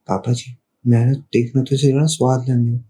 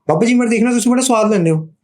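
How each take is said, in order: First: It is spoken at a low pitch. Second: It is spoken at a high pitch.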